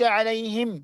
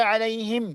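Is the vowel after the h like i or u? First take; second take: i; i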